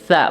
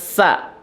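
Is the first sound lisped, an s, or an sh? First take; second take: lisped; s. First: It starts with a lisped th sound. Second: It starts with a plain s sound. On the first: The speaker calls it right. "ujung lidah ya disentuhkan dengan ujung gigi seri sa" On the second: The speaker calls it wrong. "bukan sa"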